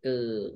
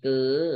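First: The syllable is said with a low tone. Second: The syllable is said with a high tone. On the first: "ไม้เอก" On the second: "ไม้ตรี"

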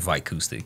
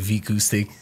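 First: The name is pronounced with English sounds. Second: The name is pronounced with Portuguese sounds. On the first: This is how English speakers say it. "most people who speak English will say Vicoustic" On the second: This is how it is said in Portugal. "so we say Vicoustic mm-hmm. in Portugal"

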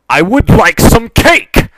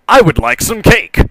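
First: It is said angrily, growing louder. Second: It is said in a put-on character voice. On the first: The speaker is furious at the listener. "switched back to her own voice, a rising crescendo of anger" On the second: Another character is speaking. "she answered herself in the Rocky voice. See, the voices"

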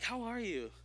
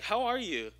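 First: It sounds warm and sincere. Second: It sounds quick and offhand.

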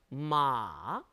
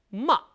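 First: The pitch comes down in a long stretch. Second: The pitch hits hard and drops briefly. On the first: "삼성은 쭉 길게 내려옵니다" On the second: "사성은 짧게 첫음을 탁 쳐줍니다"

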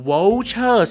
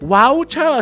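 First: The first syllable has an o vowel. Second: The first syllable has an ao vowel. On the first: "สระโอ" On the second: "สระเอา"

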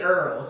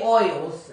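First: The vowel sounds like 'er', as in 'her'. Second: The vowel sounds like 'oy', as in 'boy'. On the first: "I'm from New Orleans. We say Earls" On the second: "We don't say oils"

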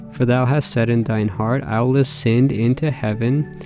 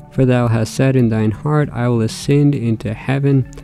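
No difference in how they are said.

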